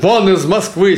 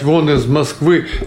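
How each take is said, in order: First: The line is said with strong emotion. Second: The line is said flatly, without much feeling.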